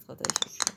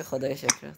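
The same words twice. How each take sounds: First: Whispered thanks. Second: Said in the usual way. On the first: Real, not acted. Relieved thanks trailing to whisper.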